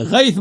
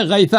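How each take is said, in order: First: غیث closed on the consonant; mispronunciation quoted. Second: غیثہ pronounced "ghaytha"; correct vowel ending. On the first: Retold or imitated. Listing the opponent's mistakes, غیث without an ending. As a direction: say غیث as "ghayth", no vowel after. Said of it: "غیث بولا ہے". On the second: Shown as a demonstration. Giving the right reading, غیثہ with a final vowel. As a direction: sound the short "a" ending of غیثہ. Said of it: "غیثہ ہے".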